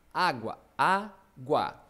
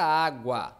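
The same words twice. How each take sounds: First: "água" very slow and louder, split á-gua; syllable by syllable. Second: Said in the usual way. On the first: Shown as a demonstration. Teacher dividing a word for the class, syllable by syllable. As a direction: pull "água" apart into two deliberate syllables. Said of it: "vou separar as sílabas". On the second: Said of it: "Vamos pegar a palavra água".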